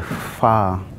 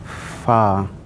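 Both takes have the same delivery.

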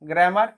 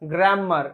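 First: The m sound in the middle is short. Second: The m sound in the middle is doubled.

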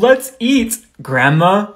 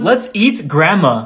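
First: There is a pause before grandma. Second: It runs on with no pause before grandma.

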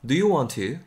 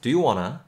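First: "Want to" is said in full, unlinked. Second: "Want to" is fast and linked into "wanna". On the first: "이렇게 하셔도 좋을 것 같고" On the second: "빨리 이제 연음이 걸리고 하면은"

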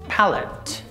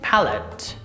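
First: It is said with British pronunciation. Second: It is said with British pronunciation.

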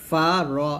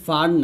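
First: The word is said as two separate syllables. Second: The word is run together as one syllable. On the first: The speaker calls it right. "এটা বলতে হবে ফা র" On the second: The speaker calls it wrong. "এটা কিন্তু ফার না"

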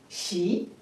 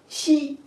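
First: The pitch rises from middle to high. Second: The pitch stays high and level. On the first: "二声" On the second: "一声"

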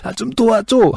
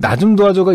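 First: It is said in a strained, effortful voice. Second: It is said without physical strain.

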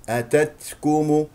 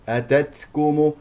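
Both takes have the same delivery.

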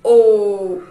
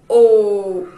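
First: The vowel is said with a closed mouth. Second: The vowel is said with a closed mouth.

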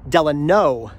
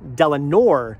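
First: The name ends in a plain vowel sound. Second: The name ends with an added R sound. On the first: The speaker calls it right. "There is no R at the end of his middle name" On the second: The speaker calls it wrong. "It's not Franklin Delano Roosevelt, as I've been saying the entire time"

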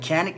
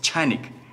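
First: The word begins with a hard k sound. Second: The word begins with a ch sound. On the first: The speaker calls it wrong. "It's not actually Canik" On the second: The speaker calls it right. "it's Chanik"

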